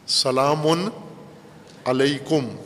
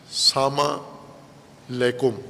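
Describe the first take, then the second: First: The greeting is said in full, every syllable clear. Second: The greeting is clipped, with syllables run together. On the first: It is a real prayer for the other's safety. The speaker calls it right. "सलामती की दुआ है" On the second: It is said out of habit, without meaning. The speaker calls it wrong. "वो ना सामा का कोई माना है ना लैकुम का कोई माना है"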